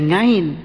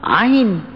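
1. Kata ini dimulai dengan bunyi ng. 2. Kata ini dimulai tanpa bunyi ng.

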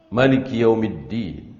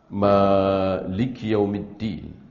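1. Vokal pertama dalam Malik itu pendek. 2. Vokal pertama dalam Malik itu panjang. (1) "bisa pendek" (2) "Bisa panjang"

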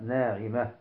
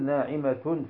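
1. تنتهي الكلمة بصوت الهاء الساكنة عند الوقف. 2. النهاية متحركة، وليست بهاء ساكنة. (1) "بل نقف عليها بالهاء" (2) "لا نقول ناعمة في حال الوقف"

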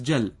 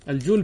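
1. يتبع الحرف الأول حركة 'a'. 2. يتبع الحرف الأول حركة 'u'. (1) "ويجوز فتحها" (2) "بضم الجيم"

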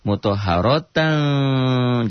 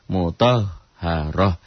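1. Kata itu berakhir dengan suku kata tan. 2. Kata itu berakhir dengan bunyi h. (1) "Kalau disambungkan" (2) "jika dihentikan bunyinya menjadi ha"

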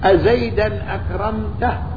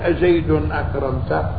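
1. تنتهي الكلمة الأولى بالحركة -an. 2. تنتهي الكلمة الأولى بالحركة -un. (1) "قولك أزيدا أكرمته أفصح" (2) "أزيد بالرفع مبتدأ"

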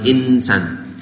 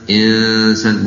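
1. N dilafalkan sebagai n yang jelas. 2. N-nya kabur menjadi dengung sengau. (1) "bukan insan" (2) "nun matinya disamarkan ke sin"

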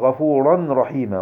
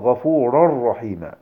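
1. يُنطق حرف النون بوضوح قبل الراء. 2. يُدغم حرف النون كليًا في الراء. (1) "لا تقل غفورا رحيما" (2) "قل غفورا رحيما"

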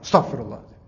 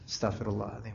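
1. Diucapkan dengan sangat keras dan tiba-tiba. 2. Diucapkan dengan pelan dan tenang. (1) "harus kadang dikerasin sampai ngagetin orang" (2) "Nyantai aja"

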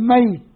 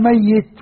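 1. الياء مفردة وقصيرة. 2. الياء مشدّدة ومُدّت أطول.

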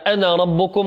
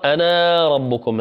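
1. الحركة الأخيرة في الكلمة الأولى قصيرة. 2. الحركة الأخيرة في الكلمة الأولى ممدودة. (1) "هذه تقرأ فقال أنا ربكم ... هذا المد طبيعي يكتب ولكن لا يمد" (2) "ولا تقرأ أنا ربكم"

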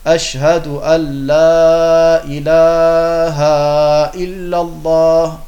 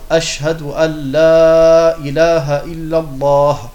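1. Der Vokal nach dem 'h' wird lang gezogen. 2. Der Vokal nach dem 'h' ist kurz. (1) "in die Länge ziehen ... Dieses Ha, das ist falsch"

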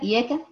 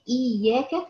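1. الياء قصيرة وواحدة. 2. الياء مشدّدة ومكرّرة. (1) "يبقى انت قلت ايه حرف واحد بس" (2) "فانت نطقتي اثنين ياء مع الحرف المشدد"

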